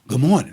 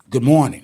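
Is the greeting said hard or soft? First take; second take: soft; hard. First: It is said softly and gently. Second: It is said harshly and forcefully. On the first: "that's too soft" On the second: "that's too hard"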